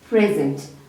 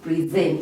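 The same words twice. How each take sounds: First: The stress is on the first syllable. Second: The stress is on the second syllable. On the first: It is a noun meaning a gift. "we are putting our emphasis on the first part, which is pre" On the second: It is a verb meaning to show before an audience. "we are putting stress on the second part, and that is why it is a verb"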